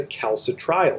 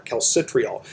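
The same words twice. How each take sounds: First: Calcitriol with TRI said like "try"; first pronunciation. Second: Calcitriol with TRI said like "tree"; alternative pronunciation. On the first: Lecturer explaining less conversion of calcidiol, calcitriol said with a "try" sound. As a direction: pronounce calcitriol kal-si-TRY-ol. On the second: Lecturer adding the other name for it, calcitriol said with a "tree" sound. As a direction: pronounce calcitriol kal-si-TREE-ol. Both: Shown as a demonstration. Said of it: "some people pronounce it".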